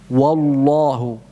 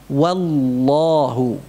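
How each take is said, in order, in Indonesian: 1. Bunyi w dibaca berat dan tebal. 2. Bunyi w dibaca ringan dan tipis. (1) "Ini termasuk kesalahan" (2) "Yang benar tetap tipis"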